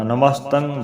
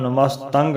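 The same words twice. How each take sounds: First: Namastan(g) with silent g in ਨਮਸਤੰ; correct nasal ending. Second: ਨਮਸਤੰਗ ending in a clear g; wrong hard-g ending. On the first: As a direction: let ਨਮਸਤੰ close on ng alone. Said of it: "ਬੋਲਣਾ". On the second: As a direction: sound a hard g closing ਨਮਸਤੰਗ. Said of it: "ਨਹੀਂ ਬੋਲਣਾ". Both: Shown as a demonstration.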